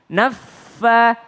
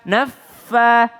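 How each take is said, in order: Both takes have the same delivery.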